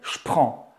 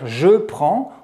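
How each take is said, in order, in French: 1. Le pronom est réduit à un son 'ch'. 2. Le pronom se prononce en entier, avec sa voyelle. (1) "va se prononcer ch" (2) "à la place de dire"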